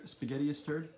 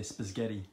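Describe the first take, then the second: First: Said in the usual way. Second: Spaghetti said as spizghetti with an extra z sound; parents' pronunciation. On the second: Retold or imitated. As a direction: say spaghetti like spiz-ghetti, adding letters. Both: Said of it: "Or as my parents used to say".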